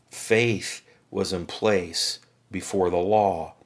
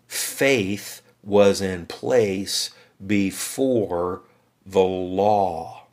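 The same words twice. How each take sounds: First: "Faith was in place before the law" repeated slowly, with the weight on "Faith"; slow repeat, leaning on "Faith"; firm restatement. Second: "Faith was in place before the law" drawn out very slowly, leaning on "was"; slow deliberate stress on "was"; slow emphatic. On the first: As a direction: restate it firmly, landing on "Faith". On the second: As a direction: spell it out word by word, stressing "was". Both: Shown as a demonstration.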